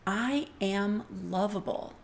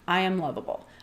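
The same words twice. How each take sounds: First: It is said slowly and with feeling. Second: It is rattled off quickly and carelessly.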